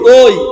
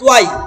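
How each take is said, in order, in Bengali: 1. স্বরটি একটি গোলাকার 'oi' ধ্বনি। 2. অংশটি 'tu-ai' হিসেবে ভাগ হয়েছে। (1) "কি বলতে হবে?" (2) "আরেকটা ভুল করি"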